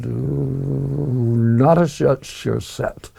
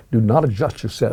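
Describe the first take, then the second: First: Slow, drawn-out "Do Not Adjust Your Set" with slushy consonants; slurred, fumbled diction. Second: Said in the usual way. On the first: Real, not acted. Naming the children's show, fumbling "Do Not Adjust Your Set" with slurred consonants. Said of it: "say that with my teeth in". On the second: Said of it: "I'll say that with my teeth in".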